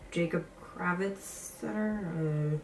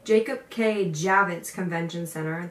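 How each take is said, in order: First: "Jacob Kravitz Center?" said softly as an unsure guess, rising at the end; tentatively mumbling "Jacob Kravitz Center?" as a half-remembered wrong name. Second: "Jacob K Javits Convention Center" said louder, each part spelled out carefully; corrected name. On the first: Fumbling the venue name while telling viewers about her audition, unsure. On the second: Fixing the venue name she just fumbled for viewers, careful and sure. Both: Real, not acted.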